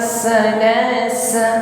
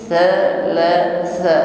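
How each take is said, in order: First: The th sound is a hissing s. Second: The th sound is soft and breathy. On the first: The speaker calls it wrong. "Bukan najwa sanasa" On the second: The speaker calls it right. "disertai dengan angin nafas, bukan disertai dengan bunyi desis"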